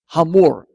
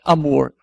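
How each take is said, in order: First: The word starts with a breathy h sound. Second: The word starts directly with a vowel. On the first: The speaker calls it right. "Se pronuncia esse H aspirado" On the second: The speaker calls it wrong. "Senão ficaria simplesmente Amor"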